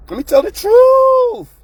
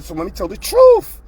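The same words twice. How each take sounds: First: Emphatic repeat. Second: Said in the usual way. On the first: Real, not acted. Repeats line, much louder and higher.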